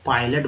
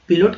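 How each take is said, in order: First: The first syllable sounds like 'pie'. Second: The first syllable sounds like 'pih'. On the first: The speaker calls it right. "पायलट बोलता है इसे" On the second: The speaker calls it wrong. "पिलोट क्यों नहीं पढ़ता है"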